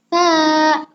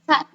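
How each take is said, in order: First: The vowel is held for two beats. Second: The vowel is short and clipped. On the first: "itu dibacanya panjangnya dua harokat" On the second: "biasanya kan dibaca kayak ta doang gitu"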